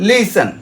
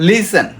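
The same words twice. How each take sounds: No difference in how they are said.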